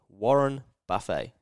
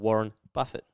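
First: The surname is said in an unusual, altered way. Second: The surname is said in its usual, standard way.

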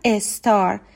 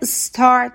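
First: A short e vowel is added before the s. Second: The word starts directly with the s sound. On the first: The speaker calls it wrong. "خیلی از ایرانی ها میگن استار، یعنی قبل از اس یک ای هم اضافه میکنن" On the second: The speaker calls it right. "STAR که star تلفظ میشه"

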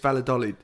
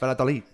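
First: The name is said with an English accent. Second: The name is said with a Spanish accent. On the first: "I would guess" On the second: "if I was Spanish"

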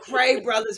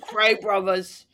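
First: It is said in the speaker's normal accent. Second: It is said in a mock English gangster accent.

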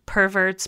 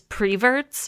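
First: The word begins with the sound per. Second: The word begins with the sound pre. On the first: This is the standard pronunciation. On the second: This is how older regional speakers say it.

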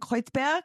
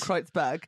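First: The name is said with a German accent. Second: The name is said with an English accent.

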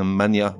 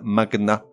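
First: The G and N merge into one 'ny' sound. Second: The G and N are pronounced as separate sounds. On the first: The speaker calls it wrong. "et non pas" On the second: The speaker calls it right. "certains mots se prononcent avec le G séparé du N"

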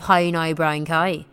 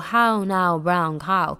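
First: It is said in the speaker's own accent. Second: It is said in a neutralised, standard accent.

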